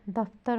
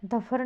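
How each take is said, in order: First: Said in the usual way. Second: दफर with no "t" sound, "da-phar"; misspelling read out. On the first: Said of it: "होता है". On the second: Shown as a demonstration. Teacher showing a misspelling, middle consonant missing. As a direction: drop the "t" in दफर. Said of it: "नहीं होता".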